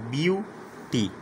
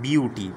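First: "beauty" broken in two, a gap between "beau" and "ty"; "beauty" pulled apart syllable by syllable; split into syllables. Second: Said in the usual way. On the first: Shown as a demonstration. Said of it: "Beau is one syllable". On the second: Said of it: "bisyllable are two syllable words".

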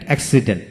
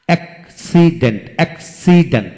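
First: Said in the usual way. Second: "accident" broken as অ্যাক, সি, dent; three separate beats in "accident"; split into syllables. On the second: Shown as a demonstration. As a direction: sound out "accident" piece by piece. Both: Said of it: "তিনটি syllable থাকে".

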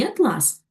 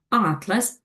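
First: Атлас with stress on the second syllable, at-LÁS. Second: Атлас with stress on the first syllable, ÁT-las. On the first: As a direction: say атлас leaning on the final ЛАС. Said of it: "Наголос у цьому слові допомагає розрізнити". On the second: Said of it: "наголос падає на перший склад". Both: Shown as a demonstration.

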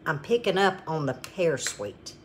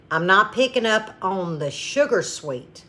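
First: Softer line, weight on "pear"; contrastive stress on pear. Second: "sugar" lifted against the rest; contrastive stress on sugar. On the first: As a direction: set "pear" apart as the true flavour, softly. Corrects sugar to pear sweetness. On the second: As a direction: set "sugar" apart as the thing denied. Contrasts sugar with pear sweetness. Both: Real, not acted.

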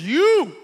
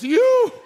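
First: A loud, higher retold "You."; calling out. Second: A much higher, louder "You." shout. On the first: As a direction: point him out with a loud "You.". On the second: Retold or imitated. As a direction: really cry out "You." now. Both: Healed father calls out.

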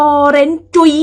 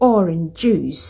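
First: "orange จุ๋ย" as or-ren JUI, high and loud; sing-song Thai tones on "orange จุ๋ย"; "orange จุ๋ย" with final consonants dropped; Thai-style orange juice. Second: "orange juice" as OR-inj JOOS; "orange juice" falling, closed on a clear S; English orange juice. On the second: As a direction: say "orange juice" with both endings sounded. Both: Shown as a demonstration. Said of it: "น้ำส้มก็บ่แม่น".

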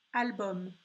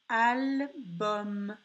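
First: Said in the usual way. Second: "Album" split into two long syllables; slow "Album" with a held final m; word sounded out. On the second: Shown as a demonstration. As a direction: stretch "Album", pausing after al. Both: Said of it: "c'était le son M".

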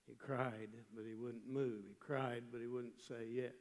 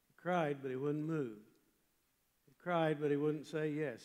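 First: Softer, resigned repetition; subdued refrain. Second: "cried" hit firmly in both clauses; emphatic refrain. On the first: Preacher tells of failing to win Walt, subdued. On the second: Preacher tells how Walt resisted his plea, emphatic. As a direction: punch each "cried", then ease off after it. First take of repeated refrain. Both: Real, not acted.

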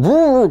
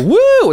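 First: Tired cheer on cue; weaker woo. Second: High, loud woo; forced cheer. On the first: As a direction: woo with less force. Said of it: "and then". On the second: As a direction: cheer on cue. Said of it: "of having to go". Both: Retold or imitated.

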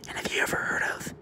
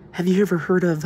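First: Whisper. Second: Said in the usual way. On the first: Real, not acted. Whispers then repeats aloud.

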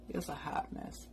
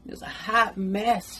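First: Whispered aside; whispering. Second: Drawn out and emphatic; slow emphatic. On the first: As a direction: whisper it under your breath. Repeats it as an aside. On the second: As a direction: stretch each word for effect. Laughing about her messy part. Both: Real, not acted.

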